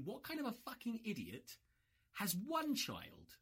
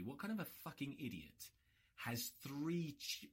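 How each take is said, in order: First: "what kind of a fucking idiot" pitched way up in disbelief; mock outrage at himself, voice jumping up; stress on fucking idiot rising high. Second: Said in the usual way. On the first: Shown as a demonstration. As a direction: hit "kind" high and incredulous.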